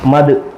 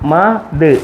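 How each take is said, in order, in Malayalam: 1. രണ്ട് ശബ്ദങ്ങളും വേഗത്തിൽ ചേർന്ന് ഒന്നായാണ് പറയുന്നത്. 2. രണ്ട് ശബ്ദങ്ങളും ഇടവേളയോടെ വേർതിരിച്ചാണ് പറയുന്നത്. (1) "സ്പീഡ് വായിക്കണം" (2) "അങ്ങനെ നമ്മൾ വായിച്ചത്. ഇനി അങ്ങനെയല്ല വായിക്കണം"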